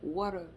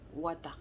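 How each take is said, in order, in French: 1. Il est prononcé avec un accent anglais américain. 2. Il est prononcé avec un accent anglais camerounais. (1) "Mais l'Américain, lui, ne dit pas Wata. Il dit water" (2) "On sait bien que pour dire l'eau, on dit Wada"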